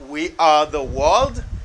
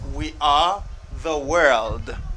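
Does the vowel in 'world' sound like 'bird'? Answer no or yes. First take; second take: no; yes. First: The vowel in world differs from bird's vowel. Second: The vowel in world matches bird's vowel. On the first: The speaker calls it wrong. "It's not we are the world" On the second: The speaker calls it right. "it's we are the world"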